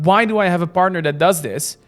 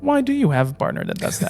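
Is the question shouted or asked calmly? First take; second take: shouted; calmly. First: The question is shouted loudly. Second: The question is asked calmly and seriously.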